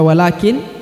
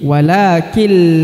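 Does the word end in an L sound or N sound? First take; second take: N sound; L sound. First: The word ends with a clear n sound. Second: The n merges into the following l sound. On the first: The speaker calls it wrong. "bukan dibaca walakin" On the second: The speaker calls it right. "tapi walakil la ya, langsung melebur ke huruf la"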